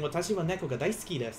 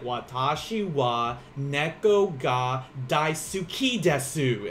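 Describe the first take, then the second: First: It is said with natural Japanese pronunciation. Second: It is said with a strong Southern American accent. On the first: The speaker calls it right. "instead of saying" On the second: The speaker calls it wrong. "he had a very, very strong Southern accent"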